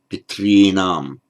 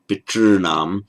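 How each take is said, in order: First: The r is followed by a distinct i vowel. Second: The r itself is a long vowel sound. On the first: "Some people make it a r plus a vowel, distinct vowel, like ri" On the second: "I tend to think it was probably a purely vocalic r"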